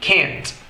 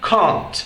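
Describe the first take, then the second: First: It is said with an American accent. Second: It is said with a British accent.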